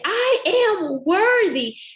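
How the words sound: It is belted out loudly and confidently. The speaker's confidence builds up. The speaker calls it right. "you say it with confidence and you belt it out"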